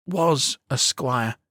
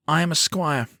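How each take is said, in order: First: Slow, falling, the word Was weighted; correcting himself sadly. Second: Said in the usual way. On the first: A narrator's reading. Boy correcting himself as his face falls, sad and slow. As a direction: let the pride drain on Was. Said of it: "he corrects himself, his face falling". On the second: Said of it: "he corrects himself".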